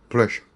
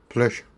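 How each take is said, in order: First: The middle consonant is a voiceless hissing sound. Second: The middle consonant is a voiceless hissing sound.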